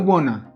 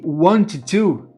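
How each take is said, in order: First: The two words blend into one reduced word. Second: The two words are said separately and fully. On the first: "ele vira wanna"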